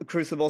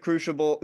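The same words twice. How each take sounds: First: "crucible" with a clean "s" in the middle; corrected crucible. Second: "crucible" with a "sh" in the middle; mispronounced crucible. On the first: Guest corrects the slip for the host, "crucible" with an "s" sound. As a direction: say "crucible" as "croo-sibble". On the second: Guest explains meme fodder to the host, "crucible" slipping into "crooshible". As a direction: slip on "crucible", saying it as "crooshible". Slip, corrected in next line. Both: Real, not acted.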